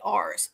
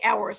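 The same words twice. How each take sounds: First: The word ours rhymes with Mars. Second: The word ours does not rhyme with Mars. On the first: The speaker calls it right. "I say ours ... It rhymes" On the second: The speaker calls it wrong. "I don't say ours"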